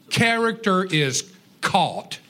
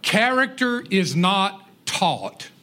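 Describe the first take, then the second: First: Slow, stress on "Character" and "caught" as the punchline; slow emphatic answer. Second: Slow, stress on "Character" and "not taught"; slow emphatic maxim. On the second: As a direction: say "Character is not taught" slowly, landing the denial. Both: Shown as a demonstration.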